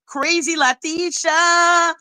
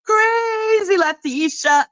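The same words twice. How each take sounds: First: Said in the usual way. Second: "Crazy" pitched high and slowed, "Crazy Latisha" drawn out; stress on Crazy. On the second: Shown as a demonstration. Vlogger mocking a rival by nickname, slow high stress on "Crazy". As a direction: lean hard on "Crazy" in "Crazy Latisha".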